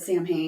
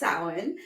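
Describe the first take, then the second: First: It is said the way it is spelled. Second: It is said differently from its spelling. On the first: The speaker calls it wrong. "I said it wrong in the last episode" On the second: The speaker calls it right. "it's Celtic, so nothing looks like what it's how it sounds"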